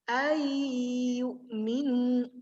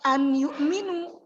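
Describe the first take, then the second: First: The n disappears into a long, held y. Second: The n is pronounced clearly before the y. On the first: The speaker calls it right. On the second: The speaker calls it wrong. "bukan bacanya"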